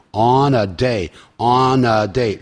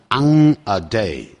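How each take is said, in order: First: "On a day" with n linked into "a"; slow "On a day", clean n, no ng; correct, linked pronunciation. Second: "on a day" with "on" ending in ng; slow "ong a day" for "on a day"; wrong pronunciation. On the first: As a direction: say "on a" joined as "o-na". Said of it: "连在一起". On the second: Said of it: "记住唱的时候不要念". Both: Shown as a demonstration.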